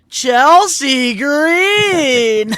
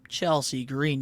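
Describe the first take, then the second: First: The name is said with hyped-up excitement. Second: The name is said in a casual way.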